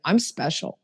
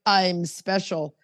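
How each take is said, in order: First: Plain, sincere self-affirmation; earnest, understated declaration. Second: Slow, self-important mock boast; lightly arrogant put-on declaration. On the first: Shown as a demonstration. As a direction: say it simply and mean it. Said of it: "I mean it". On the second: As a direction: imitate someone arrogant, drawing the words out. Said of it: "you're very arrogant".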